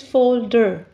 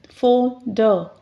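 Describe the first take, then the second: First: Said in the usual way. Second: "Folder" in two separate beats, fol, der; split into syllables. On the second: Shown as a demonstration. Teacher showing two syllables, "Folder" split fol-der. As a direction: break "Folder" in the middle with a short pause. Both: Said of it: "why it has two".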